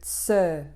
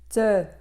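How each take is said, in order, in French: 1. La consonne fricative reçoit plus de force. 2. La consonne occlusive est tenue avec plus de force. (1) "au lieu de tse" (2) "te au lieu de"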